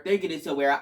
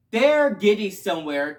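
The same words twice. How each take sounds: First: Said in the usual way. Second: Excited louder take. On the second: Real, not acted.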